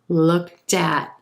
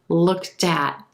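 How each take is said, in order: First: The final T links onto the following word. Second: The final T links onto the following word.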